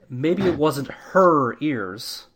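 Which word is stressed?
her. The stress falls on the word her.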